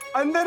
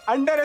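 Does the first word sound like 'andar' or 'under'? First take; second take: andar; under. First: The word is said with a soft dental d. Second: The word is said with a hard retroflex d. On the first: The speaker calls it wrong. "अंदर नहीं" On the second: The speaker calls it right. "अंडर estimate"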